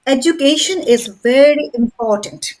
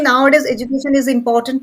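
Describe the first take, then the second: First: Education with KAY stressed, very and important each weighted; measured, punch education, very, important; proper stress. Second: Quick run-through without stress; how people speak. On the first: Teacher correcting the hurried version, education and very important stressed. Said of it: "but you have to say". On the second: Teacher imitating how people speak, fast and unstressed. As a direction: rattle it off fast, no word standing out. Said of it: "people speak like that". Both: Shown as a demonstration.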